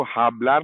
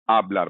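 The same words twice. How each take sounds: First: "हाबलार" with an audible h at the start; sounded H. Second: "आबलार" opening straight on the vowel; silent H. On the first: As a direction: breathe out the h opening "हाबलार". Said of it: "आप इसको हाबलार नहीं बोलेंगे". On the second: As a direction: start "आबलार" with no h at all. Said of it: "ये silent है". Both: Shown as a demonstration.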